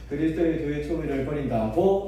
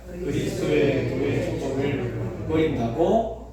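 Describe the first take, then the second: First: It is said with a dialect question intonation. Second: It is read flatly, like a plain statement.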